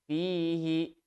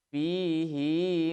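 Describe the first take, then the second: First: The final 'hi' vowel is short. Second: The final 'hi' vowel is held long. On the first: "umumnya dibaca pendek" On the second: "tetap dibaca panjang"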